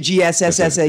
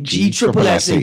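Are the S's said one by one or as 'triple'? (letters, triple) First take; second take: letters; triple. First: Each S is spoken separately as a letter. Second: The S's are grouped and spoken as triple. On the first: The speaker calls it wrong. "Don't say G S S S A" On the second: The speaker calls it right. "just like B triple A's"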